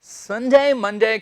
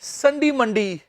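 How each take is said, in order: First: The words end with an 'ay' sound. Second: The words end with an 'ee' sound.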